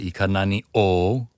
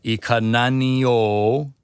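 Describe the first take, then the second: First: A glottal catch separates the two words. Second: The words run together without a break. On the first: The speaker calls it wrong. "as opposed to" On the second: The speaker calls it right. "so you'd run that together"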